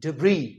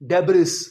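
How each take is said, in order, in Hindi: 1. शब्द स्वर पर खत्म होता है, कोई s नहीं। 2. शब्द का अंत एक साफ़ s की आवाज़ से होता है। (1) "इसका जो सही प्रोनाउंसिएशन है वो है डिब्री।" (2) "नहीं, इसमें यो ये जो एस है हम नहीं प्रोनाउंस करेंगे।"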